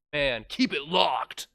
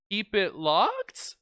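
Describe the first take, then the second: First: Catchphrase. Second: Slow unsure rising delivery; a touch of nerves before the boss; nervous. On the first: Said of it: "use that soundbite". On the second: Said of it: "my character's a little bit nervous that time". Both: Pretend.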